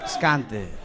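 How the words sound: It sounds like a drug dealer selling.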